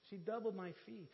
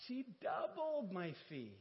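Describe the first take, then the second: First: Said in the usual way. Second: Doubled drawn out slowly and stressed; slow emphatic doubled. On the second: Shown as a demonstration. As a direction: lean hard on doubled.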